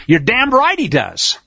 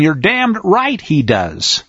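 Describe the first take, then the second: First: Right said with a firm falling stress; emphatic. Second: Very slow repeat, each word weighed; you're damned right he does said slowly, right stressed and falling; slower repeat. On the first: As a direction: stress on right, higher and slow. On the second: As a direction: drag it out for weight. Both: Real, not acted. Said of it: "I'll say it again".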